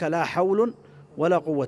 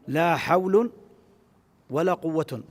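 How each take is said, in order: First: Only the first noun ends with -un. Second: Both nouns end with an -un sound. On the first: The particle governs only the second noun. "بإهمال الأول وإعمال الثاني" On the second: The particle governs neither noun. "بالإهمال في الأمرين"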